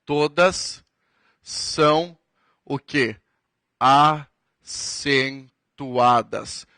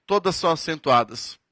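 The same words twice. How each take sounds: First: Teacher fill-in-the-blank drill; drawn-out prompt. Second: Said in the usual way. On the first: Shown as a demonstration. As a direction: pause before Acentuadas, then Acentuadas stretched very long. Teacher prompts students to complete.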